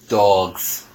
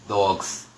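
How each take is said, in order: First: It is said in the speaker's plain accent. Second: It is said in a New York accent.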